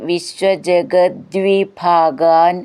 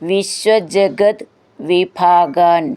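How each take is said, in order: First: The two words are joined, with t becoming d. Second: The two words are said separately, ending in t.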